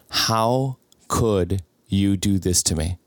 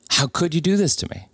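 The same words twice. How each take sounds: First: Slow, broken, hurt plea; slow wounded question to the girlfriend. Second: Higher, pleading repeat; higher anguished repeat to the cheating girlfriend; anguished plea. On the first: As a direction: drag it out like the news just landed. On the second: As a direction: let it crack upward in disbelief. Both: Retold or imitated. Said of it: "are the words that came out of my mouth".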